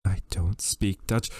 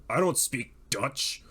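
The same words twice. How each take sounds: First: Put-on character voice. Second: Said in the usual way. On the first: Shown as a demonstration. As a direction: say it slowly in a different voice. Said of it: "line said twice, second in a different voice".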